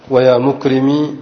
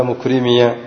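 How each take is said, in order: First: Slow "مكرمي" ending in ee; silent final ya. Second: "مكرمي" ending in -iya; voweled final ya. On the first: Teacher giving students another example, "مكرمي" with plain ee ending. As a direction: end "مكرمي" on a still long ee. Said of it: "إثبات الياء ساكنة". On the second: Teacher completing the example, "مكرمي" said mukrimiya. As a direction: open the last ya of "مكرمي" into short a. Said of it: "مفتوحة،". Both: Shown as a demonstration.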